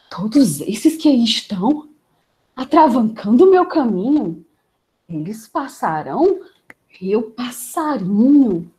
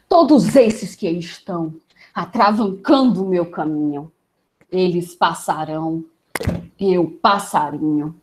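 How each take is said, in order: First: It is said with a surprised tone. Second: It is said with an angry tone.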